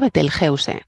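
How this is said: It is pronounced the Spanish way. "dice que se pronuncia Betelgeuse, como suena"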